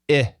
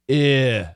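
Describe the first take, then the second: First: The vowel is pushed out once, short. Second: The vowel is drawn out long. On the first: The speaker calls it right. "just push it once" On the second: The speaker calls it wrong. "don't stretch it. Eh, don't do that"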